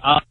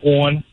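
First: It is said with a Michigan pronunciation. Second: It is said with a Baltimore pronunciation. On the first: "opposed to saying on" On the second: "I say on"

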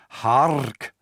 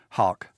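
First: The R is strongly rolled. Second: The R is soft, not rolled. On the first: This is how the word sounded in Elizabethan England. "They would have said hark" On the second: This is how the word sounds today. "We see it today"

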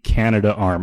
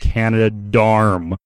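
First: It is said with no d before 'arm'. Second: It is said with a d before 'arm'. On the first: The speaker calls it right. "calling it the Canada Arm" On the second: The speaker calls it wrong. "I've never heard it pronounced Canada Darm"

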